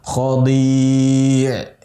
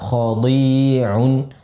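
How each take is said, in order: First: Long four-count vowel, stopping on the consonant. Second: Short two-count vowel, ending with -un. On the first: The reading stops on this word. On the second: The word is read joined to what follows.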